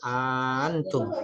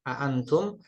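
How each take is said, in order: First: The glottal catch is softened and glided over. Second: The glottal catch is pronounced fully and clearly. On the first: "dapat pula dibaca tasil" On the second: "dapat dibaca tahqiq"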